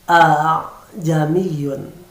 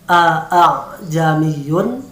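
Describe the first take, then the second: First: The second opening 'a' sound is lightened. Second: Both opening 'a' sounds are said clearly. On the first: "maka berubah menjadi a-jamiyun. Hamzah yang kedua diringankan saja" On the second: "yang semula harus dibaca a-a-jamiyun"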